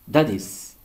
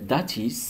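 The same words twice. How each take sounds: First: The t is pronounced as a soft d. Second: The t is pronounced as a clear t. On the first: "au lieu de T, on prononce D" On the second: "transforme en"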